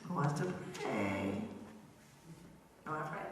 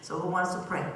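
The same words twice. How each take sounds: First: Lower, softer invitation to pray; gentle ask. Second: Said in the usual way. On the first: Real, not acted. Storyteller gently asks the children who will pray.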